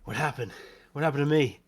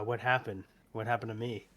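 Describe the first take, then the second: First: It is said in a character voice. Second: It is said in his normal voice.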